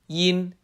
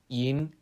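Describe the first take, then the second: First: The pitch stays level and flat. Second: The pitch rises upward.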